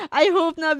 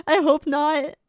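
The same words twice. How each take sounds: First: Loud, higher I hope not; loud exclamation. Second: I hope not through a teary laugh; laugh-crying. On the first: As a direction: blurt it out, loud and pitched up. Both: Real, not acted.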